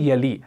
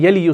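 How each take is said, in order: First: The word ends in a long 'ee' vowel. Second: The final 'y' is voiced with a 'u' vowel. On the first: The speaker calls it right. "या साकिन होता है" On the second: The speaker calls it wrong. "यली यू नहीं बनेगा क्योंकि rule apply करना है"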